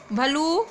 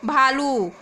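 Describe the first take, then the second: First: भलू with a short a after bh; reading out the misspelt भलू; wrong short vowel. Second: भालू with a long aa after bh, a bit louder; the corrected भालू, long aa stretched; correct long vowel. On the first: Teacher reads the misspelt word to the class, short a. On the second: Teacher gives the corrected spelling to the class, long aa. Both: Shown as a demonstration. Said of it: "चलू, चालू".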